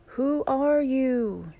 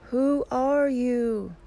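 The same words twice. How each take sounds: First: High, slow yell, each word drawn out; curious yell. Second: Echo's high, drawn-out call; slow, loud answer ringing back from the mountain; echoed yell. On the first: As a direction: call it out loudly across the mountains. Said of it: "Curious, he yells". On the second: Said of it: "He receives the answer". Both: A narrator's reading.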